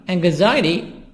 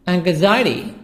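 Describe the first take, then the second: No difference in how they are said.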